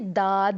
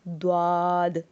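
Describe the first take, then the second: First: A plain d with no w-glide. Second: The d is followed by a w-glide. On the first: The speaker calls it wrong. "ये दाद नहीं है" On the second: The speaker calls it right. "इसकी अदायगी होती है द्वाद"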